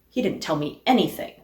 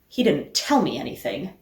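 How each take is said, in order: First: The word "anything" carries the main stress. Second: The word "tell" carries the main stress. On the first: The speaker is frustrated at learning nothing. "Or that he didn't tell me anything, and I am frustrated by the lack?" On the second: He did something other than telling. "That he didn't tell me anything, but maybe he did something else?"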